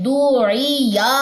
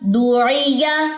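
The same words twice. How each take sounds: First: The short vowels are drawn out too long. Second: The short vowels are kept short and crisp. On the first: The speaker calls it wrong. "अब क्या गलती करते हैं? ... हरकत लंबी" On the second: The speaker calls it right. "हरकत दुरुस्त करें"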